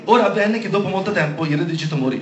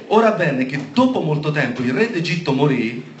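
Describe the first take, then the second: First: Fast skim read aloud to check it's the right passage; quick check reading. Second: Unhurried proclamation to the congregation; deliberate scripture reading. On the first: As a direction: rattle through the verse quickly. Scorre il versetto per verificarlo. (lettura veloce di verifica) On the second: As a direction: read the verse out at a measured pace. Rilegge il versetto alla chiesa. (lettura solenne e scandita) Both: Real, not acted.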